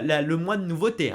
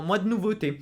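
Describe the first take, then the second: First: Said in the usual way. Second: "mois de nouveauté" spelt out, each word pressed firmly; said very clearly. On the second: Shown as a demonstration. Reviewer insisting to viewers on "mois de nouveauté", stressed firmly. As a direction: lean on "mois de nouveauté" as if repeating a point. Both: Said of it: "je l'ai dit très clairement".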